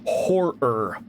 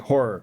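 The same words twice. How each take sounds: First: Both R sounds are pronounced separately. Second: The two R sounds are merged into one. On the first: "I don't say horror" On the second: "I sort of mashed the two R's, um, together"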